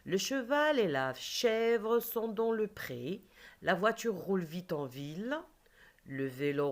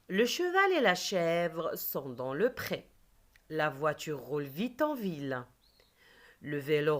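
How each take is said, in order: First: Slow model reading; teacher repeating a sentence more slowly; slower reread. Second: Teacher reading a sentence to the class; reading aloud. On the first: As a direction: reread slowly with each word spaced. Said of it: "Je répète les quatre phrases". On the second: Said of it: "Je lis des phrases". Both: Shown as a demonstration.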